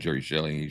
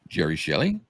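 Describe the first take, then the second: First: The name is said plainly, without special emphasis. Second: The name is said with strong, marked emphasis. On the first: "instead of just saying" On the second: "Just like that, ... she would have that emphasis on it"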